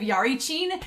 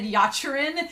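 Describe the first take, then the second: First: The middle syllables come out as ri then chi. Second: The middle syllables come out as chi then ri. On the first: The speaker calls it right. "instead of Yarichin" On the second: The speaker calls it wrong. "I've always said Yachirin"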